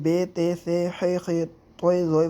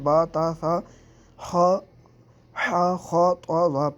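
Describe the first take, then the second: First: Letter names end in an Urdu-style 'e' vowel. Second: Letter names end in an Arabic-style 'a' vowel. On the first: The speaker calls it wrong. "Urdu तलफ़्फ़ुज़ से परहेज़ करें" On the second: The speaker calls it right. "अरबी लहजे में अदा करें"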